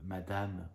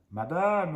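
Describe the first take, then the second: First: Said in the usual way. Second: "madame" called out high and loud; insistent, raised-voice address; calling out. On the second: Real, not acted. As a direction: hail the commenter loudly, pitch jumping up. Repeated address to hostile commenter, escalating.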